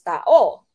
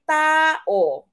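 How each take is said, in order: First: The stress is on the last syllable. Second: The stress is on the first syllable. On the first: The speaker calls it wrong. "you don't uh, pronounce this as" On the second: The speaker calls it right. "second to the last yung kanyang diin"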